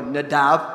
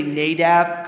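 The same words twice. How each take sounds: First: "Nadab" stressed on the last syllable, na-DAB; "Nadab" the Hebrew way, last syllable stressed. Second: "Nadab" stressed on the first syllable, NAY-dab; "Nadab" the English way, first syllable stressed. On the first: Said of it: "'cause in Hebrew, it's on the second syllable". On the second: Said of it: "'cause nay is the strong syllable". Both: Shown as a demonstration.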